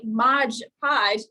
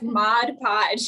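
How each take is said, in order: First: The first word ends with a j sound. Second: The first word ends with a d sound. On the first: The speaker calls it wrong. "you're actually saying it wrong" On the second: The speaker calls it right. "not the G at the end of mod"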